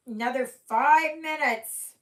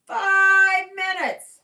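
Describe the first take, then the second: First: Loud, high call across the room. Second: Very high, loud, slow call; loud drawn-out call. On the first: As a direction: call it out to someone away. Calling out to Mandy. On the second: Calling out, repeated. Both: Real, not acted.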